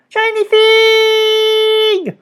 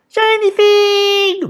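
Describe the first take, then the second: First: Very high, very slow goblin wail; eager goblins. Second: Very high, slow goblin cry; drawn-out greedy goblin squeal; eager goblins. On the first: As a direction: stretch it out greedily. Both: A narrator's reading. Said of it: "the goblins cried eagerly".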